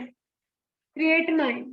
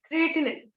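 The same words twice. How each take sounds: First: क्रिएटिनाइन said with a long "ai" in the last syllable, kree-ay-ti-nine; क्रिएटिनाइन pronounced "kri-e-ti-nain"; creatinine with long ai. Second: क्रिएटिनिन said with a short "i" in the last syllable, kree-ay-ti-nin; क्रिएटिनिन pronounced "kri-e-ti-nin", clipped at the end; creatinine with short i. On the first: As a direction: say क्रिएटिनाइन ending in "-nine" like the English word. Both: Shown as a demonstration. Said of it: "कुछ लोग इसको क्रिएटिनिन भी बोलते हैं".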